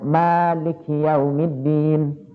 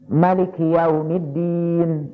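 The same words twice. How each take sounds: First: The first vowel of Maliki is long. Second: The first vowel of Maliki is short. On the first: It means the one who owns. "dengan mak yang panjang" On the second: It means the king who rules. "dengan mak yang pendek"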